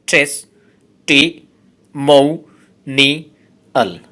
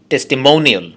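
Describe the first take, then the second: First: testimonial said as slow, separate syllables; teacher dividing testimonial into syllables. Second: Said in the usual way. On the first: Shown as a demonstration. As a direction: spell out testimonial one syllable at a time. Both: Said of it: "এই ওয়ার্ডটাতে আছে পাঁচটি syllable".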